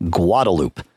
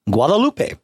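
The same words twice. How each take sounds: First: "Guadalupe" with a silent final e; anglicized "Guadalupe", low and falling; Austin pronunciation. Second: "Guadalupe" with the final e sounded; Spanish-style "Guadalupe", last vowel voiced; Spanish pronunciation. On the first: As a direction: say "Guadalupe" in three syllables, ending "loop". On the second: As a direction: say "Guadalupe" in four syllables, ending "pay". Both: Shown as a demonstration. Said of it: "What do they call it in Austin?".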